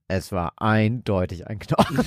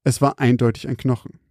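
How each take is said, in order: First: Low, soft, mock-ominous quote; hammed-up spooky delivery; dramatic reading. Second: Said in the usual way.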